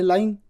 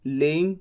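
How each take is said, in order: First: लाइंग said as "lie-ing"; correct pronunciation. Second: लेइंग said as "lay-ing", wrong; wrong pronunciation. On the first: Teacher gives students the right way, लाइंग as "lie-ing". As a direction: say लाइंग with a clear long "lie". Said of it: "pronunciation भी सही सही लिखनी". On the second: Teacher shows students the wrong way, लेइंग as "lay-ing". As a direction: mispronounce लेइंग with an ay sound. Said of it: "आप कह दें". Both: Shown as a demonstration.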